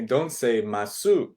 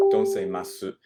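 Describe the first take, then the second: First: Firm teacher's correction; emphatic correction. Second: Said in the usual way. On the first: Shown as a demonstration. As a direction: stress "Don't", pronounce "masu" with the final u fully.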